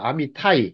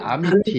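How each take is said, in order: First: The name ends with a 'tai' diphthong. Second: The name ends with a short 'ti' sound. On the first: "히브리식 발음은 아미타이예요" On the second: "아미티라고 합니다"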